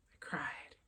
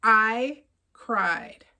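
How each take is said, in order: First: Hushed whisper after saying it aloud. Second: Said in the usual way. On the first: Real, not acted. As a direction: let it fall to a breathy whisper. Repeats, then whispers it.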